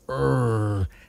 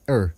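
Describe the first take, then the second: First: The sound is stretched out and emphasized. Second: The sound is short and quick. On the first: "the longer you prolong the er part" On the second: "you could say like er"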